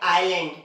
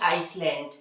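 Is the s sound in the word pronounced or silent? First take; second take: silent; pronounced. First: The s sound is silent. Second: The s sound is pronounced. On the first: The speaker calls it right. "तो हम लोग इसे पढ़ते हैं आइलैंड" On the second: The speaker calls it wrong. "ना कि आइसलैंड"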